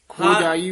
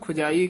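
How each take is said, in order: First: The first vowel is a long o sound. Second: The first vowel is a short u sound. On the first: The speaker calls it right. "ਹੋੜਾ ਦੀਰਘ ਮਾਤਰਾ ਹੈ। ਖੋਜਾਈ ਉਚਾਰਨ ਕਰਨਾ" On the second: The speaker calls it wrong. "ਆਮ ਕਈ ਨਾ ਖੁਜਾਈ ਕਹਿ ਜਾਂਦੇ ਨੇ ਔਂਕੜ ਦੇ ਨਾਲ"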